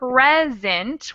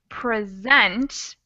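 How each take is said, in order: First: The stress is on the first syllable. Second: The stress is on the second syllable. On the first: A gift. "when it has the accent on the first syllable" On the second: To show or give something to someone. "has the the stress on the second syllable"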